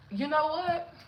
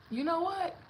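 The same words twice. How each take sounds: The two takes are said the same way.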